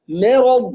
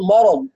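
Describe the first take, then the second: First: The opening m is light, not emphatic. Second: The opening m is heavy and emphatic. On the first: The speaker calls it right. "بدون مبالغة في الترقيق" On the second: The speaker calls it wrong. "لا نفخمها تبعا للراء والضاد بعدها، لا نقول"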